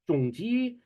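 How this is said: The name is said the Singaporean way. "you'll hear people from Singapore say it as Zhong Ji"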